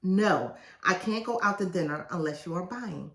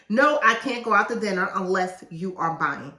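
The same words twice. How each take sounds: First: Said in the usual way. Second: Loud, pushy no, too much force; wrong take, forceful no. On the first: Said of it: "so I got that out my system". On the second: Shown as a demonstration. Author showing readers the wrong way, loud no. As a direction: bark the refusal at them. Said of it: "Don't say it like that".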